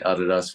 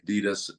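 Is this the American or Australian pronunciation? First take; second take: Australian; American. First: It is said the Australian way. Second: It is said the American way.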